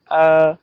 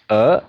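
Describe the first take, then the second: First: The pitch stays high and level. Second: The pitch rises from middle to high. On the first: "First tone on A" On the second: "now second"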